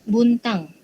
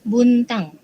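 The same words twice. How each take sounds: No difference in how they are said.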